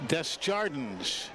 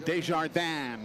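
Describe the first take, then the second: First: The name is pronounced with English sounds. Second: The name is pronounced with French sounds. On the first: The speaker calls it right. "but it is not" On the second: The speaker calls it wrong. "pronounced the French way"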